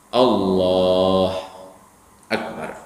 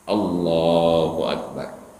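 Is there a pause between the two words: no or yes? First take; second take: yes; no. First: A brief pause separates the two words. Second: The two words run together without a pause. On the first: "berhenti sebentar antara dua kata tadi, antara Allah dengan Akbar" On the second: "Biasakan takbir yang sederhana"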